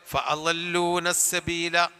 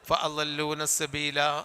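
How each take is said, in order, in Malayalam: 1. അവസാന സ്വരം ചെറുതായി തന്നെ നിർത്തുന്നു. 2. അവസാന സ്വരം ചെറുതായൊന്ന് നീട്ടുന്നു. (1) "ഫഅലൂന സബീല എന്നേ ഉള്ളൂ" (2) "ഒരു ചെറിയ വലിപ്പം"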